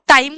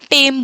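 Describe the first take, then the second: First: The vowel glides, as in the standard form. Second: The vowel is a single steady e sound.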